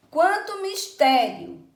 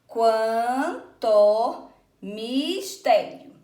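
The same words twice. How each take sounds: First: Said in the usual way. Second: "Quan, to, mis, tério" very slow, each piece held and set apart; syllable by syllable. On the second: Shown as a demonstration. Teacher counting poetic syllables with pupils, slowly syllable by syllable. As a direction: chop "quanto mistério" into long, separate syllables. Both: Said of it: "Então, vamos contar aqui".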